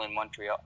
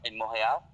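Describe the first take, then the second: First: Said in the usual way. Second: Montreal said the French way, silent t; French pronunciation. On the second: Shown as a demonstration. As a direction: say Montreal as "mon-ray-AL" with a French r. Repeats city with French pronunciation.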